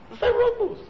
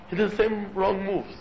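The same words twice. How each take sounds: First: "same wrong moves" pitched far higher, each word hit; high emphatic repeat. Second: Said in the usual way. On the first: Real, not acted. Rabbi hammering his point to the congregation, high and emphatic. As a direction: leap way up on "same" and drive the phrase home.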